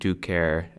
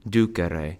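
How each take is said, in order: First: The final vowel is silent. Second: The final vowel is clearly pronounced. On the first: The speaker calls it wrong. "pronounce it like an English word, where the last C is silent" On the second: The speaker calls it right. "This final E in infinitives is pronounced E"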